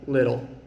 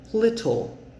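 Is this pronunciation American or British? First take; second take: American; British. First: The middle t is a quick tap, no air. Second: The middle t is a crisp t with air. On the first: "I'm American, so my T in the middle of a word uses something called the flap T" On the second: "British people might say it more like little"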